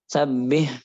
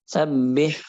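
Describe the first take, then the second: No difference in how they are said.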